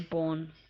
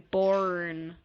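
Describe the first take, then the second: First: It is said with a non-American pronunciation. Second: It is said with an American pronunciation. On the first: This is how the speaker's own group says it. "whereas we say born" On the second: This is how the listener says it. "you say born"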